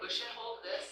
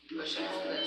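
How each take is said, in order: First: Said in the usual way. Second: Soft whispered instruction to the class; whispered repeat. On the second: Shown as a demonstration. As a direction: push and hold this, half whispered. Repeating the step more softly.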